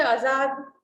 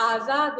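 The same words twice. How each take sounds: First: आजाद with a short first vowel, "a-zaad"; wrong pronunciation. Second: आजाद with a long first vowel, "aa-zaad"; correct pronunciation. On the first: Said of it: "आजाद नहीं होता है". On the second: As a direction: open आजाद on a full "AA", pitched lower. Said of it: "आजाद होता है". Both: Shown as a demonstration.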